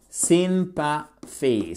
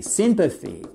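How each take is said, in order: First: "Sympathy" stretched very slowly, syllable by syllable. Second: Said in the usual way. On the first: Shown as a demonstration. Teacher breaking "Sympathy" down for learners, slow syllables.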